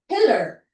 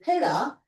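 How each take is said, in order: First: The final R sound is clearly pronounced. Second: The final R sound is dropped. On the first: This is how Americans say it. "ganyan yung American sound" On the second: This is how people in the UK say it. "They kind of omit the R and they say"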